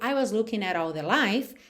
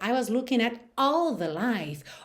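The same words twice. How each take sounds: First: All the life is said plainly, without emphasis. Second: All the life is given strong vocal emphasis. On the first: "é uma coisa" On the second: "olha só esse all the life, ele já ganhou uma outra dimensão"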